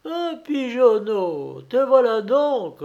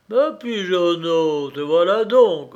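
First: Storybook sheep's head, pitched right up; bleating sheep. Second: Loud, rumbling bear grumble; storybook bear, forceful and grumbly; growling bear. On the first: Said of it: "bêla une tête de mou". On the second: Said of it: "grommela un ours". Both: A narrator's reading.

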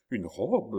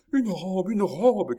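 First: Restrained, disbelieving repetition; overcome echo. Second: High, loud, jubilant shout; joyful cry. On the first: Countess near fainting with joy, faintly amazed. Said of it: "près de succomber à la joie". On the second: Chon clapping at the dress, crying out. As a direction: cry out the wonderful find. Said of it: "cria Chon en battant les mains". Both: A narrator's reading.

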